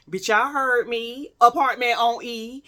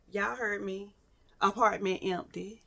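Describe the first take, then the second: First: Insistent, punched-up restatement; emphatic repeat. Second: Softer, deadpan aside for effect; hushed repeat. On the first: Storyteller makes sure y'all heard, emphatic repeat. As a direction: drive it home to the audience. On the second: Storyteller lets the empty apartment sink in, quiet repeat. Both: Retold or imitated.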